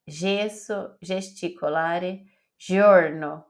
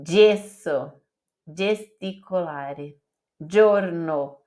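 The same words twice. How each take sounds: First: Gesso, gesticolare, giorno read as in Portuguese, zh sound. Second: Gesso, gesticolare, giorno each with a clear dj; gesso, gesticolare, giorno with the Italian dj sound. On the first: Teacher showing how Brazilians would read it. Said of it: "Como que a gente leria em português?". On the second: Teacher showing the correct Italian pronunciation. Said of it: "Em italiano é". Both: Shown as a demonstration.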